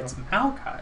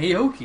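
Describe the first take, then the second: First: The name ends with an 'eye' sound. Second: The name ends with an 'ee' sound. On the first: The speaker calls it right. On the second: The speaker calls it wrong. "Why is he saying"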